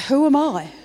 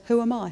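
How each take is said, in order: First: Pitched up and louder; raised plea repeated; louder higher repeat. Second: Said in the usual way. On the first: Retold or imitated. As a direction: ask it again with more force. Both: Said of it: "He says it twice".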